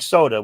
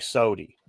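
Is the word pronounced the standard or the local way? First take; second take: standard; local. First: It is said the standard way. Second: It is said the local way. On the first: This is how other regions say it. "You didn't drink soda" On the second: This is how the speaker's home region says it. "we drank sody"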